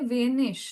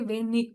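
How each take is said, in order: First: The word ends in a soft ch sound. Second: The word ends in a hard k sound. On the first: This is the standard pronunciation. "They will not say vanish" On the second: This is the Bavarian dialect pronunciation. "they'll say venik"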